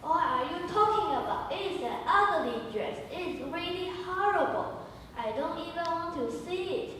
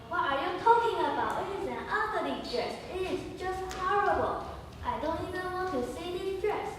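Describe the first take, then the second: First: High, loud scornful outburst; scornful calling. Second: High, loud scornful outburst; Laura mocking her friend's dress choice; scornful calling. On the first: Acted. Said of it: "Jen is calling". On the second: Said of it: "Laura is calling". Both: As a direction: sneer at the ugly dress.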